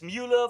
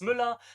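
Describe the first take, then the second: First: The name is said with an English vowel. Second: The name is said with a German ü vowel. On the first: "for English speakers it's Mueller" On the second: "for German speakers it's Müller"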